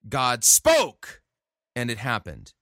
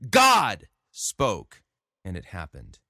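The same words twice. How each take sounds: First: The stress falls on 'spoke'. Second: The stress falls on 'God'. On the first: The power lies in the spoken word. The speaker calls it wrong. "notice the emphasis is on the wrong syllable. Here's how he's saying it" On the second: The power lies in the one who spoke. The speaker calls it right. "The way that the passage reads is"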